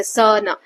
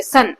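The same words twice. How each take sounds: First: स न pulled apart into two beats; wrong-way demo, स and न separated; wrongly split word. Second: सन said in one single beat; सन as one smooth sound; one unbroken syllable. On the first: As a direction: say स न with a gap after स. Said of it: "ऐसा नहीं बोलते". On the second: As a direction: say सन whole, with no pause inside. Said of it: "आप एक बार भी नहीं रुके". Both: Shown as a demonstration.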